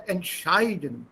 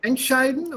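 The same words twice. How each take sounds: First: Entscheiden with the second syllable SCHEI lengthened; stress on SCHEI in entscheiden. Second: Entscheiden with ENT hit first; weight the prefix ENT of entscheiden; wrong stress on ENT in entscheiden. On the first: Teacher gives the second option, stress on SCHEI in entscheiden. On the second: Teacher gives student a choice, stress on ENT in entscheiden. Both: Shown as a demonstration. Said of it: "stress is again on the second one".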